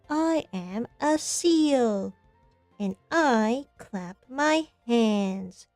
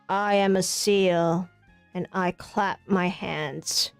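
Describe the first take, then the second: First: It is said in a lively, animated voice. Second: It is said in a flat, unanimated voice.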